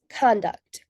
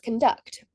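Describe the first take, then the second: First: The stress is on the first syllable. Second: The stress is on the second syllable. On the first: The word is a noun. "If the primary word stress is on the first syllable, con, the word becomes conduct, which is a noun" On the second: The word is a verb. "If the primary word stress is placed on the secondary syllable, duct, the word becomes conduct, which is a verb"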